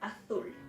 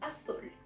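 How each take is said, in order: First: It is said in a peninsular Spanish accent. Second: It is said in a peninsular Spanish accent.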